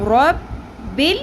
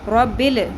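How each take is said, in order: First: The L sound is held firmly without a vowel. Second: The L sound is released with a vowel. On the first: The speaker calls it right. "लाम साकिन को हिलाना नहीं, अपने मखरज से जमा के रखना है" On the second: The speaker calls it wrong. "ऐसे नहीं पढ़ना, गलत है"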